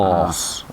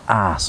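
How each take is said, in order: First: The vowel is a rounded o sound. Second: The vowel is a flat, short a sound. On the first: "not an o, os" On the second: "because of my pronunciation and my Cornish roots, we say ass"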